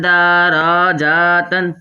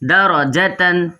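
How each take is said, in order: First: A short vowel is stretched into a long one. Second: All the short vowels are kept short. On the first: The speaker calls it wrong. "बाज़ात तो ऐसे भी पढ़ते हैं दराजातन, है गलत है" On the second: The speaker calls it right. "हमने पढ़ना है सही तरीके से, जैसे कि दराजतन"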